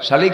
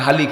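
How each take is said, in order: First: The word begins with a sh sound. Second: The word begins with an h sound.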